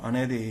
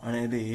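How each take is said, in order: No difference in how they are said.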